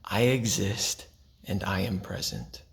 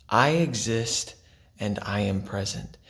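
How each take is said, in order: First: Said in the usual way. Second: "I exist" stretched and lifted, "present" let down gently; slow emphasis. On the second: Shown as a demonstration. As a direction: dwell on "I exist", lift "I". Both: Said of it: "my favorite two are".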